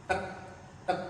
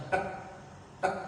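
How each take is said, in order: No difference in how they are said.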